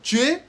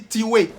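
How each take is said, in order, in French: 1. Il est prononcé avec un accent français standard. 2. Il est prononcé avec un accent français congolais. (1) "au lieu de dire tuer" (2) "on dit tiwe"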